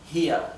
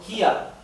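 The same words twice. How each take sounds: First: The final R is barely heard at all. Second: The final R is clearly and strongly pronounced. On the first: "se pronuncian de una forma casi imperceptible" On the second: "Lo pronuncio eh, un poco exagerado a propósito"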